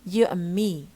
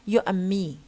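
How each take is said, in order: No difference in how they are said.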